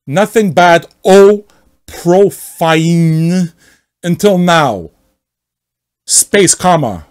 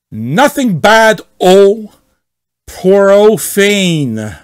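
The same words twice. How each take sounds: First: Hammed-up offended poster; angry member sneering at the rules; mock outrage. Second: Slow, loud, higher sarcasm; hammed-up offended poster; angry member sneering at the rules; mock outrage. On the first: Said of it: "Let me read here". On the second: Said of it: "read as much as possible like him".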